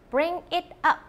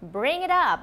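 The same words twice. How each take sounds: First: Each word is said separately and distinctly. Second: The words are linked smoothly into one. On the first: The speaker calls it wrong. "번역기 아니고 좀 자연스럽게 좀 굴리려면 bring it up 보다는" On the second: The speaker calls it right. "이렇게 발음을 하거든요"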